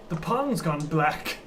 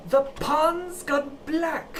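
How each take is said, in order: First: Slow ominous line. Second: Very slow, higher, spelled out for a deaf listener. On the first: Player in character, first take. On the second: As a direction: drag every word out for someone hard of hearing. Repeats line louder for deaf lady. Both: Acted.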